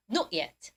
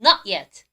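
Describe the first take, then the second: First: Soft, low British "Not yet"; British "Not yet" with a rounded o in Not; British pronunciation. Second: Louder American "Not yet", open "naht"; American "Not yet" with an ah vowel, low and loud; American pronunciation. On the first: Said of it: "영국 발음 뭐라고요". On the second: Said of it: "미국 발음은요". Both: Shown as a demonstration.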